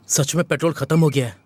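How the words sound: It is said in a dull, flat way.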